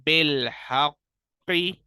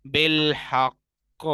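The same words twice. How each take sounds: First: Slow recitation of "बिलहक़ी", open "qi" ending; without waqf. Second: Slow recitation of "बिलहक़", stopped on heavy q; with waqf. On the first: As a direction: chant "बिलहक़ी" loudly with doubled q and "i". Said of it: "हम बगैर वक्फ के पढ़ेंगे". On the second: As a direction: chant "बिलहक़" loudly, doubled q and no vowel. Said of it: "तशदीद बाकी रहेगी". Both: Shown as a demonstration.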